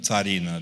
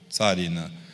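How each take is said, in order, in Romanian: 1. Accentul cade pe a doua silabă. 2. Accentul cade pe prima silabă. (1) "nu țarină" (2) "da? Țarină"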